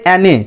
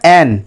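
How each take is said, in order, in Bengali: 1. নামটির শেষে একটি যুক্ত 'eh' স্বরধ্বনি আছে। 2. নামটি 'n' ধ্বনিতে শেষ হয়েছে। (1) "এটা অনেকের উচ্চারণটা এরম মনে হতে পারে অ্যানে" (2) "আমি বারবার দেখবে বলছি ওটা অ্যান"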